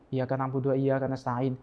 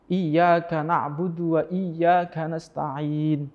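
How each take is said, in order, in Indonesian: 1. Bunyi y dibaca pendek, diucapkan cepat. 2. Bunyi y dibaca panjang dan ganda. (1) "Karena terlalu cepat mungkin" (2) "Seperti contoh"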